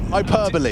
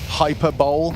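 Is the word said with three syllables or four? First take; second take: four; three. First: It ends in 'bolee', with four syllables. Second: It ends in 'bowl', with three syllables. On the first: The speaker calls it right. "That's how we say it" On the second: The speaker calls it wrong. "as I used to think it was pronounced"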